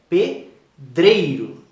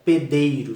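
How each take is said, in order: First: The d is followed by an r sound. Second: The d is said without a following r. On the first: The speaker calls it right. "é pedreiro" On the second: The speaker calls it wrong. "Não é pedeiro"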